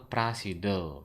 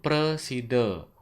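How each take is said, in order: First: The first vowel is a clear a sound. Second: The first vowel is a weak e sound. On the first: The speaker calls it wrong. "Ampunang wacana prasida" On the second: The speaker calls it right. "kewacen presida"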